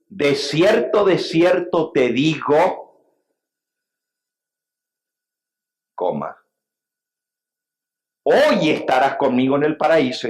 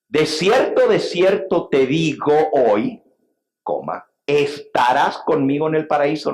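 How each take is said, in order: First: The break comes before the word 'hoy'. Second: The break comes after the word 'hoy'.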